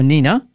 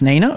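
First: "Nina" said as NEE-na, with a long "ee"; pronounced NEE-na. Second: "Nina" said as NAY-na, with an "ay" vowel; pronounced NAY-na. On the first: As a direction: say "Nina" with a first syllable like "knee". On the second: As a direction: say "Nina" with a first syllable like "neigh". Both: Shown as a demonstration. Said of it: "is it pronounced Nina or Nina".

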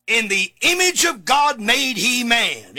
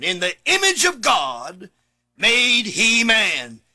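First: Said in the usual way. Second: "image" stressed, "made he man" drawn out very slowly; slow emphatic repeat. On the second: Shown as a demonstration. Preacher repeating the verse to congregation, slowly stressing "image". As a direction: linger on each word, leaning on "image".

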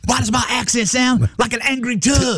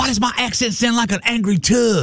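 First: High sing-song imitation of Jessica; a lilting mock of her voice; Jessica impression. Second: Jessica impression. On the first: Imitating Jessica asking why her accent sounds like a tug. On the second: Host imitating Jessica to tease her on air. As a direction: belt it out as a mock Jessica. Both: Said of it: "apparently I'm doing her accent".

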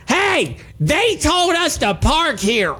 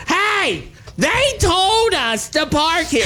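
First: High, slow, indignant protest with every syllable jabbed; indignant pointed retort. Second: High and slow, each syllable jabbed out; indignant pointed retort. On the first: Retorting to the guys who yelled at him, high and indignant. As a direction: tap out each word like wagging a finger. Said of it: "in this exact tone, pointing my finger". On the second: Repeating his reply to the smokers, high and indignant. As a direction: scold like wagging a finger at them. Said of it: "I moved my index finger up and down with every syllable". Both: Retold or imitated.

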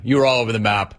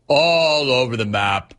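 First: Said in the usual way. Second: "All over the map" stretched slowly, "All" held long; drawn-out repeat. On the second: Real, not acted.

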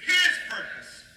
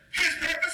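First: High, emphatic call on HIS; louder emphasis. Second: Said in the usual way. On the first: Shown as a demonstration. Preacher urging the congregation to say it louder, emphatic call. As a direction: punch it out higher and louder. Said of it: "say it louder". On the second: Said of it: "Say it louder".

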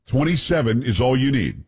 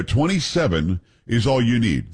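First: Said in the usual way. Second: Twenty-seven said slower and weighted, each syllable clear; slow, insistent correction. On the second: Shown as a demonstration. Host correcting doubters on the Senate count, slow and insistent. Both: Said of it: "No, twenty-seven is all you need".

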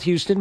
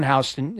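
First: Houston like the Texas city, "HYOO-stun"; as spelled. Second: Houston with a "how" at the start; local street pronunciation. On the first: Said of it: "spelled Houston". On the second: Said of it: "it's pronounced Houston". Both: Shown as a demonstration.

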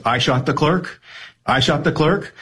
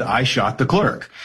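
First: Rising, disbelieving New York question on "I shot the clerk?"; incredulous New York question. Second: "I shot the clerk." read flatly as a plain statement; deadpan statement. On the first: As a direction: throw "I shot the clerk?" back in sarcastic disbelief, pitch climbing on the second one. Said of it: "the intonation and your read on New York sarcasm, or disbelief and questioning". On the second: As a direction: say "I shot the clerk." like a sheriff reading the transcript, dry and matter-of-fact. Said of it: "the sheriff deadpan says". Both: Retold or imitated.

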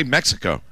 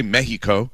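First: Said in the usual way. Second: Mexico said the Spanish way, MEH-hee-ko; Spanish-style "Mexico", h in the middle; native pronunciation. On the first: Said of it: "we're fine just mispronouncing words". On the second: Shown as a demonstration. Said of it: "not pronouncing it the way they do".

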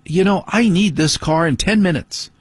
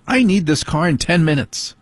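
First: Higher voice, mock wife demanding the car; imitating wife. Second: Higher mock wife voice, insistent; imitating wife. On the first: Husband mimics his wife calling him in from the car. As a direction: mimic the wife's impatient reminder. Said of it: "my wife coming out going". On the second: Husband repeats what his wife always tells him. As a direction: play the wife nagging about the car. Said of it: "That's usually what I have to hear".

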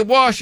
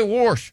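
First: Wash said "wahsh", no R; "wash" the standard way, as "wahsh"; standard pronunciation. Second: Wash said as "warsh"; "wash" with an intrusive R, "warsh"; regional pronunciation. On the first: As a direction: say "wash" with an open vowel and no R. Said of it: "You say wash". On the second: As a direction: add an R to "wash" before the SH. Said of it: "I say wash". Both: Shown as a demonstration.

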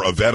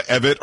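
First: "Evette" stressed on the last syllable, uh-VET; second-syllable stress. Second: "Evette" stressed on the first syllable, EV-it. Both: Shown as a demonstration. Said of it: "I'm not sure how she says it".

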